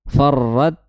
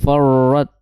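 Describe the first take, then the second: First: The r sound is held and trilled. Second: The r sound has no trill. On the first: The speaker calls it right. "bergetar ujung lidahnya" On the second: The speaker calls it wrong. "Jangan sampai farrat far. Nah, itu kurang tepat"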